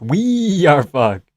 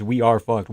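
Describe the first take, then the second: First: We are fucked, very slow, every word weighted; emphatic repeat. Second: Said in the usual way. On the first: Real, not acted. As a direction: drag out We are fucked for effect.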